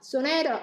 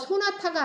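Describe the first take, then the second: First: It has a flapped t and middle-syllable stress. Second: It has plain Korean syllables with no flap. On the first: The speaker calls it right. "이런 식으로 플랩이 일어나고 또 중간에 스트레스가 들어가고" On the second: The speaker calls it wrong. "소나타가 아니라"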